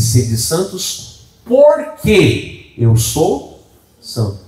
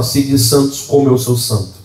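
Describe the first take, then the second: First: "Sede santos porque eu sou santo" drawn out slowly, porque leaned on; slow the verse down and press porque; stress on porque. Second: Said in the usual way. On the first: Shown as a demonstration. Preacher correcting the verse for the church, slow and stressed. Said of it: "A Bíblia diz". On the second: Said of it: "A Bíblia não diz isso".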